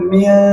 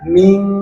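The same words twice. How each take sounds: First: The nasal is said light, with a thin, bright mouth. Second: The nasal is said heavy, with a full, dark mouth. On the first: The speaker calls it wrong. "bukan min" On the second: The speaker calls it right. "maka membacanya harus dengan tafkhim"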